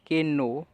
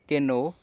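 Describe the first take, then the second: The two takes are said the same way.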